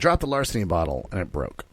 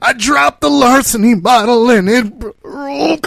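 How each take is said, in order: First: It is said flatly, without emotion. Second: It is said with upset, emotional feeling. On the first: The facts are reported without showing feelings. "very clinically" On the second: The feelings about the event are shown. "God, I can't believe it"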